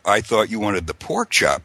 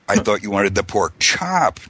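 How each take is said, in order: First: The stress is on the word 'pork'. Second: The stress is on the word 'chop'. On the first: It was the pork kind, not another kind of chop. "not the lamb chop" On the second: It was the chop, not another cut of pork. "not, you know, the pork belly or whatever"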